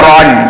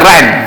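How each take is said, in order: First: The vowel is thick and rounded, like 'o'. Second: The vowel is thin and open, like 'a'. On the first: The speaker calls it right. "kita buat ajran ron" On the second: The speaker calls it wrong. "dia baca ran"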